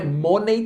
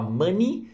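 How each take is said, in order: First: "money" said wrongly as "MOH-nay"; mispronounced money. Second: "money" said as "MUH-nee"; correct money pronunciation. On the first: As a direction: say "money" with a round o and an "ay" ending. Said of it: "tem gente que fala money". ("money" pronunciado errado, como "mônei") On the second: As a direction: say "money" with an "uh" vowel and an "ee" ending. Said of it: "você fala money". ("money" pronunciado certo, como "mãni") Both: Shown as a demonstration.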